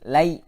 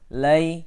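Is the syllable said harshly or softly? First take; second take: harshly; softly. First: The syllable is said harshly and roughly. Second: The syllable is said softly and gently. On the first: The speaker calls it wrong. "tidak boleh keras, kasar. Lai tidak boleh" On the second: The speaker calls it right. "Dibacanya harus lembut juga"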